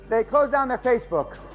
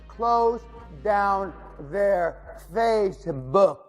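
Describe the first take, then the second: First: It is said at a normal speed. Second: It is said very slowly.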